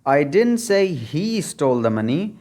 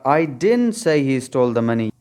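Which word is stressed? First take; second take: he; didn't. First: The stress falls on the word he. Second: The stress falls on the word didn't. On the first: Someone else stole the money. "अगर आप ही पर stress डालेंगे" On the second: The speaker flatly denies saying it. "अगर आप stress didn't पर डालेंगे"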